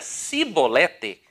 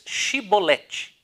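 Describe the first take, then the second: First: The word begins with a plain 's' sound. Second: The word begins with a 'sh' sound. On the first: The speaker cannot say the 'sh' sound and is exposed as an Ephraimite. The speaker calls it wrong. "não podendo exprimir bem a palavra" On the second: This is the form the Gileadites demanded. The speaker calls it right. "dize pois Shibolete"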